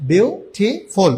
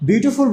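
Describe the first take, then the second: First: বিউটিফুল slowly split into three beats; syllable by syllable. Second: Said in the usual way. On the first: Shown as a demonstration. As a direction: break বিউটিফুল into beu, ti, ful with a gap after each. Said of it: "অর্থাৎ তিনবারে উচ্চারিত হচ্ছে". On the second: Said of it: "আপনি যখন".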